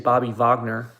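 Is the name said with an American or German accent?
German. It is said with a German accent.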